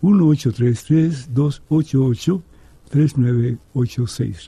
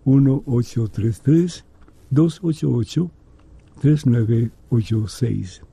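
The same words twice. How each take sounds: First: The number is read at normal speed. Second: The number is read more slowly.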